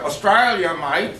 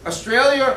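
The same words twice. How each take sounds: First: Mock Aussie accent, drawn out; broad joking Australian accent. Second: Said in the usual way. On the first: Shown as a demonstration. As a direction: say it slowly like an Australian. Mimics Australian "mate" accent.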